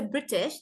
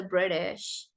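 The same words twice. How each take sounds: First: British with a hard, clear T. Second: British as "Briddish", T softened to a flap; slow British with a rolled T; American rolled T. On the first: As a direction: pronounce the T in British fully. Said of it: "They will not even say British". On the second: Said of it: "Americans roll their T's also". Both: Shown as a demonstration.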